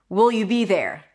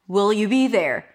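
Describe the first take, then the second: Both takes have the same delivery.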